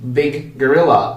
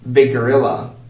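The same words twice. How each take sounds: First: The G is said twice with a pause. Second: One shared G joins the words quickly.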